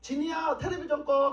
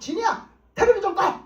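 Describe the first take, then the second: First: It is said in a gentle, calm tone. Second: It is said in a harsh, fierce tone.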